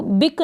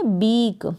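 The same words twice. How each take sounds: First: बिक with a short clipped i; बिक, i kept brief; wrong short vowel. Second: बीक with a long ee; बीक, vowel held long like English beak; correct long vowel. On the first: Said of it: "इसको बिक नहीं पढ़ेंगे". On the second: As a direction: stretch the ee in बीक. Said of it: "हम पढ़ेंगे बीक". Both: Shown as a demonstration.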